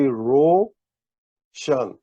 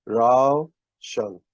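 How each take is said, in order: First: "ro shan" with a pure rounded vowel in "ro"; pesh vowel. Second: "rao shan" with A gliding into U in "rao"; zabar diphthong. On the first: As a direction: say "ro" like English "row" a boat, then "shan". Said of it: "if we had put pesh here". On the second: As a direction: open "rao" on an A sound, then "shan". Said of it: "zabar accent mark is an A sound". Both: Shown as a demonstration.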